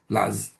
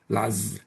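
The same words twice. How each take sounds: First: The word is said with one syllable. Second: The word is said with one syllable.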